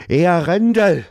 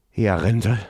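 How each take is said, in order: First: Much higher, louder desperate cry for the guard; desperate call. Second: Said in the usual way. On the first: Acted. Prince desperately calling for his bodyguard, loud high cry. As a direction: shout for help into the empty room. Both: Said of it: "Verzweifelt rief Elon nach seinem Leibgardist".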